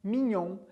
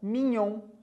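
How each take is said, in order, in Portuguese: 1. O gn é pronunciado como ny. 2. O gn é pronunciado como ny.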